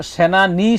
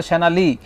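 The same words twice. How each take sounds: First: সেনা নি, slow, ending on a clear ni; correct NI ending. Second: সেনা লি, ending on li in place of ni; misheard LI ending. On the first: Shown as a demonstration. Host explains the misheard lyric, সেনা নি ending in ni. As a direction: spell out সেনা নি with n in the last syllable. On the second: Retold or imitated. Host voices the child's mishearing, সেনা লি ending in li. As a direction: say সেনা লি with l in the last syllable. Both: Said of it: "আমার কাছে মনে হয় সেনা লি".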